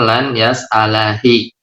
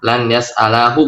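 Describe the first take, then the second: First: The word ends with the vowel i. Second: The word ends with the vowel u. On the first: The speaker calls it wrong. "bukan lan yas'alahi" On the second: The speaker calls it right. "Lan yas'alahu bukan lan yas'alahi"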